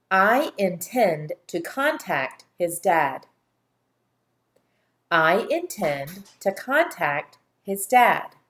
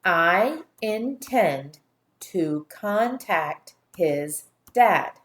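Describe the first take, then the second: First: Slow, clear dictation of the sentence; careful read-aloud. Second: Very slow, every syllable hit separately; pounding each syllable. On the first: Teacher reading the sentence slowly to the class. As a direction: read it slowly for young listeners. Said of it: "Listen carefully". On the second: Teacher pounding each syllable for the class to repeat. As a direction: pound out each syllable of I intend to contact his dad. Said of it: "pound each syllable". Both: Shown as a demonstration.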